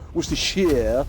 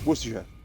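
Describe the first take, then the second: First: The 'sh' sound in the ending is strongly emphasized. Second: The 'sh' sound in the ending is light and reduced. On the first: The speaker calls it wrong. "you don't put as much emphasis on the like S H as I do" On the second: The speaker calls it right. "It's it's just"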